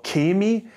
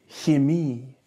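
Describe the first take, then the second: First: The ch is a regional dialect sound. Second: The ch is the soft standard sound. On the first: The speaker calls it wrong. "used by some dialects in German, but not the standard at all" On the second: The speaker calls it right. "it is used in the softer version"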